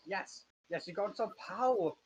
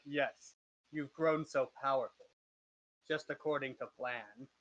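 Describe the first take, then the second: First: Villain line before the deep voice, slightly raised; gloating villain, pitched a bit up; villain voice, first attempt. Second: Lightly deepened villain voice; measured gloating in a slightly deep voice. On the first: Game master trying out the master's gloating line, lightly voiced villain. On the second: Acted. Game master as the master praising the party's power, lightly deep voice. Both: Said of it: "he's like a deep voice".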